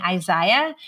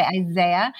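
First: Isaiah said the Northern Irish way she grew up with; Belfast pronunciation. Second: Isaiah said the way Americans say it; American pronunciation. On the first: Belfast-raised guest showing how she says Isaiah, Irish pronunciation. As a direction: give Isaiah your Belfast sound. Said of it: "I grew up saying Isaiah". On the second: Guest contrasting her version with how Americans say Isaiah, American pronunciation. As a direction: switch Isaiah to the American sound. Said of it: "the Americans say Isaiah". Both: Shown as a demonstration.

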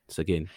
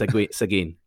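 First: "Seguin" said once more, softer and settled; softer settled repeat of "Seguin"; repeating the name. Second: "Segui-, Seguin" tried out, cut off and restarted; trying out "Seguin" aloud, testing the sound; halting first attempt at "Seguin"; first try at the name. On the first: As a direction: quietly repeat "Seguin" to lock it in. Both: Shown as a demonstration. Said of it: "not being able to pronounce Seguin".

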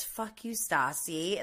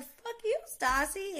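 First: Said in the usual way. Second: Much higher pitched mock retort; Stassi firing back. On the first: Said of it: "he says". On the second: Vlogger imitating Stassi's comeback to Tom, high mock snap. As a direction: throw it straight back in a higher voice. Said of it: "And she's like".

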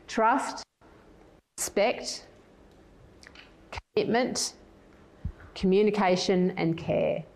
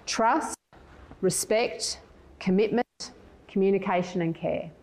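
First: Slow, spaced-out list so listeners can write it down; slow, for note-taking. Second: Quicker first run-through. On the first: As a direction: list them slowly with long pauses between items. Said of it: "I'll say them slowly". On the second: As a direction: list them briskly with short gaps. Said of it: "I'll say them quickly". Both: Shown as a demonstration.

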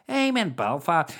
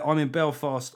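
First: Higher-pitched mock Belfast accent. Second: Said in the usual way. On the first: Shown as a demonstration. Comic announcing a Belfast gig, put-on Belfast accent. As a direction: put on a broad Northern Irish accent. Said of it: "gonna do the Belfast accent".

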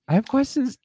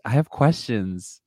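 First: Much higher, exasperated repeat of the line. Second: Said in the usual way. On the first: Shown as a demonstration. Critic repeating herself in high mock exasperation. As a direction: squeak it out in disbelief.

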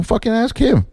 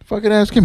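First: High, fed-up outburst of "Fucking ask him"; exasperated snap. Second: "Fucking ask him" said again, still high and fed up; repeated exasperation. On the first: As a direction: fling it at the stage manager in disgust. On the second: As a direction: echo the outburst, still annoyed. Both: Retold or imitated. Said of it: "I was like".

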